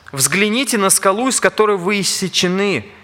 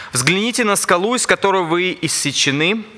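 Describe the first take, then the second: Both takes have the same delivery.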